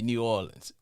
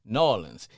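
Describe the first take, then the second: First: It is said the way outsiders say it. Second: It is said the local New Orleans way.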